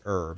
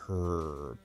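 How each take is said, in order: First: The word starts with a vowel, no H sound. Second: The word starts with a strong, clear H sound. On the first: This is how the speaker normally says it. "I say I say herb" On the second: This is said on stream to annoy people. "it's a very strong herb"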